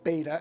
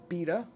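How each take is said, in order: First: It is said the American way. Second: It is said the non-American way. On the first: "what I call beta" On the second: "in a lot of countries they refer to what I call beta as beta"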